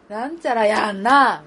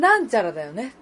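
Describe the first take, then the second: First: 「なんちゃらやんな」 slow, loud, accent pushed onto the end; Osaka intonation. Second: 「なんちゃらだよね」 with flat Kanto tune, no push at the end; Kanto intonation. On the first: Host demoing Kansai tune to listener: ending stressed. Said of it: "大阪弁は". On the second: Host demoing Kanto tune to listener: plain flat ending. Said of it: "が関東や". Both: Shown as a demonstration.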